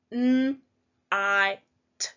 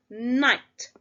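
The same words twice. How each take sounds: First: Each sound said apart with a pause between. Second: Said in the usual way. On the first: Shown as a demonstration. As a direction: segment N, I, t one sound at a time. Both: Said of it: "let's pinch our sounds".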